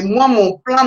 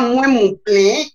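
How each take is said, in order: First: Said in the usual way. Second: "moi, mon plein" slow, "moi" as nasal "mouin"; prononciation québécoise. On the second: Shown as a demonstration. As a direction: stretch "moi, mon plein" with Quebec "in" vowels. (« moi, mon plein » étiré, « moi » dit « mouin » à la québécoise) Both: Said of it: "il y a beaucoup de choses comme ça".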